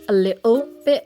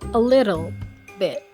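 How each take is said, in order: First: It is said in a British accent. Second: It is said in an American accent. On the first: "British people would pronounce it as either T or uh" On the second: "for Americans, they either pronounce it as R or as T"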